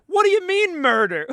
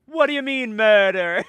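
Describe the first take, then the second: First: High, loud mock indignation; quoting a meme video, high loud mock indignation. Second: Loud mock indignant quote; quoting the meme video again, loud mock indignation. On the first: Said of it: "That's like the". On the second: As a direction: repeat the meme line louder. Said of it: "You seen that video?".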